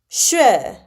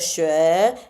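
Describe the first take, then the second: First: The pitch falls on the word. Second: The pitch does not fall on the word. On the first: "you go down on that word" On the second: "instead of sure"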